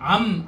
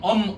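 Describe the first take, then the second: First: The vowel is an open 'ah' sound. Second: The vowel is a mid 'uh' sound. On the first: "암이라고 발음하잖아요" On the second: "히브리어로 가는 엄, 엄으로 발음해요"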